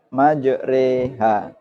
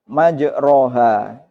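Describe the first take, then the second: First: The vowel after the r is tilted toward e. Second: The vowel after the r is an open a. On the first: Traveling on the sea. "namun dibaca majreha" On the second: Traveling on land. "berbunyi majroha"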